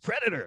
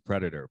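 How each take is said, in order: First: It is said in a very excited way. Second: It is said in a plain, flat way.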